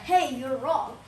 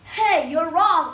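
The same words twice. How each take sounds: First: It is said in a nice, gentle tone. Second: It is said in a harsh, aggressive tone. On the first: The person is being treated fairly. The speaker calls it right. "if it's justice, you're nice" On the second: The person is being treated unfairly. The speaker calls it wrong. "Not unfairly like"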